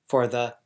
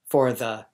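The two takes are said the same way.

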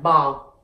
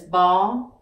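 First: The word is said with a low falling tone. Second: The word is said with a level tone. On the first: "Add in yo huyền, and you have bo" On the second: "you pronounce b o, and together is bo"

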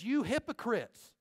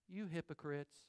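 First: The words are said in an angry tone. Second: The words are said in a calm tone. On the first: The speaker is furious with the listeners. The speaker calls it right. "He was ticked" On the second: The speaker is not upset with the listeners. The speaker calls it wrong. "he didn't say it like this"

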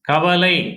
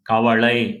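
First: It is said in standard Tamil pronunciation. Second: It is said in Kongu dialect pronunciation.

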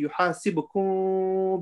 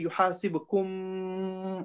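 First: The final m is hidden in a nasal sound. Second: The final m is fully closed and clear. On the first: The speaker calls it right. "I say yuhasibukum bihillah. Can you see there's a gap?" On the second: The speaker calls it wrong. "I don't say yuhasibukum. I don't join my lips"

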